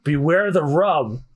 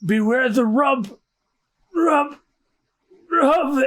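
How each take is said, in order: First: Said in the usual way. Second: Slow, higher-pitched dying warning; about to pass out. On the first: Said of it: "What did he say?". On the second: Acted. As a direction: stretch it out with pauses as consciousness slips. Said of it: "And he passes out".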